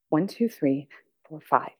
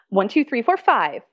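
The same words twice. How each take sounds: First: It is said in an upset voice. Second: It is said in an excited voice.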